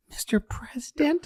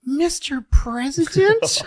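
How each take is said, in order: First: Much higher, whispered and rising; a breathy falsetto whisper of a question; Jackie, whispered. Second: Much higher, slow and rising; a sweet, breathy falsetto question; Jackie, puzzled. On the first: Comic imitating Jackie, whispering the question. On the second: Comic imitating Jackie answering LBJ, high-pitched. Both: Retold or imitated. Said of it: "you hear her go".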